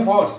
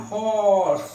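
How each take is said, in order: First: Said in the usual way. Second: হর্স with a clear h and a long stretched vowel; drawn-out pronunciation. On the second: Shown as a demonstration. Teacher showing students the h sound, drawn-out হর্স. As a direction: stretch হর্স out at half speed. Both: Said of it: "একদম হ এর উচ্চ".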